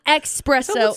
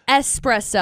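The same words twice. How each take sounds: First: The first syllable sounds like 'ex'. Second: The first syllable sounds like 'es'. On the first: The speaker calls it wrong. "It's not espresso" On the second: The speaker calls it right. "it's espresso. ... S is there, not ... X"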